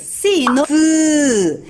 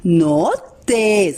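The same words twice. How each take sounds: First: "T" as a slow, bare voiceless tongue tap with no vowel; just tap out "T", no "te"; right take: bare sound. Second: "T" said as the full letter name "te", with its vowel; wrong take: letter name. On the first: Teacher correcting the children to the bare T sound. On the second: Teacher showing the mistake children should avoid. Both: Shown as a demonstration.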